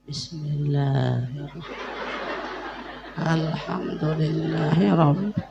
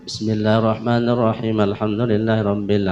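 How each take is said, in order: First: It is recited slowly, with deep feeling. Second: It is recited quickly, as routine reading. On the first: The words are felt and savoured inwardly. The speaker calls it right. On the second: It is merely read without feeling. The speaker calls it wrong. "cara sabiase"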